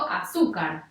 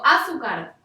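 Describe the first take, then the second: First: The stress is on the second syllable. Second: The stress is on the first syllable. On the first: The speaker calls it right. "Digo azúcar" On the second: The speaker calls it wrong. "la comprobación ... con la antepenúltima"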